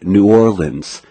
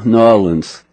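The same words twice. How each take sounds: First: Every syllable is carefully and fully articulated. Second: It is said in a relaxed local way. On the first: The speaker calls it wrong. "I would articulate" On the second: The speaker calls it right. "make me say it right"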